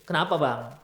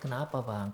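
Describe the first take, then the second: First: It is asked in a threatening tone. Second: It is asked in a gentle tone.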